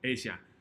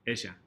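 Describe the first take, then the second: First: The double L sounds like an English j. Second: The double L sounds like a buzzing z. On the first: "sometimes there's a little J sound" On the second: "a little sneaky Z sound"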